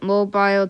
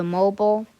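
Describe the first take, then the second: First: Said in the usual way. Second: "mobile" pronounced MOH-bull; misspelled mobile. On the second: Shown as a demonstration. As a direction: read out the typo, "mobile" rhyming with noble. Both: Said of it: "Accidentally spelled mobile to mobile".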